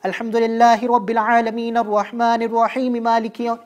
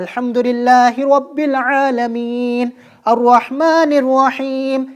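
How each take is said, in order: First: It is recited quickly, words run together. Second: It is recited slowly and drawn out.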